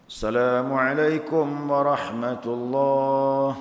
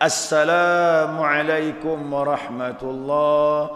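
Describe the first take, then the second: First: The article at the start is dropped. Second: The article at the start is clearly sounded. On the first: The speaker calls it wrong. "Mana alif lamnya?" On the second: The speaker calls it right. "Kalau makrifatnya"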